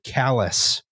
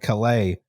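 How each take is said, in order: First: The name sounds like the word 'callus'. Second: The name does not sound like 'callus'.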